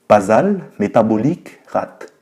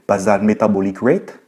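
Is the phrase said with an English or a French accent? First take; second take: French; English. First: It is pronounced with a French accent. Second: It is pronounced with an English accent. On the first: "Je vais le prononcer à la française" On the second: "en me faisant passer pour savoir parler en anglais"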